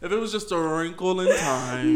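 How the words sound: It is said in a put-on, imitated voice.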